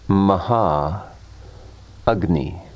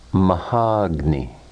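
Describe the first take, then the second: First: Two separate words with both vowels kept. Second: One word with the vowels merged into one.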